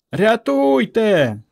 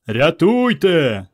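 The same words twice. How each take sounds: First: Long, high wail for rescue; cry for help. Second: Long, slow bellow for help; bass bellow. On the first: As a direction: scream for help, stretching it out slowly. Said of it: "не вгавала Варка". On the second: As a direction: bellow it like a big lad. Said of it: "басом гаркнув Іван". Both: A narrator's reading.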